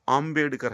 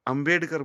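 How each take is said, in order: First: आम्बेडकर with long opening आ; careful native आम्बेडकर, first vowel held long; correct surname. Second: अम्बेडकर with short first vowel, "um-BED-kar"; short-vowel अम्बेडकर, as read from English; common pronunciation. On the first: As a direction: open wide on "AAM" in आम्बेडकर. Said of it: "आ है, ए नहीं है". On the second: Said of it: "अम्बेडकर बोलते हैं ना". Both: Shown as a demonstration.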